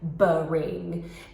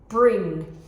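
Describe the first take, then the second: First: A small extra vowel splits the b and r. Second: The b and r blend quickly with no vowel. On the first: The speaker calls it wrong. "So they're saying brain, brain" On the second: The speaker calls it right. "Let's say it really quickly. ... And I would model it like that"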